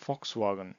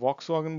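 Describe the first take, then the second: First: The word begins with an F sound. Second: The word begins with a V sound. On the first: The speaker calls it right. "জার্মানিতে তো উচ্চারিত হবে ফক্স" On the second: The speaker calls it wrong. "এটাকে ভক্স ওয়াগন বলি না"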